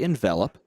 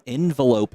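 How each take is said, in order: First: The word is said like the verb 'envelop'. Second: The word is said like the noun 'envelope'. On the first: "Or you could say envelop" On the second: "if you say it that way"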